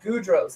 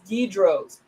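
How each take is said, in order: First: The first syllable has an 'oo' vowel. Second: The first syllable has a short 'i' vowel. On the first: The speaker calls it wrong. "I just think I was saying Goudros" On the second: The speaker calls it right. "It's Gidros"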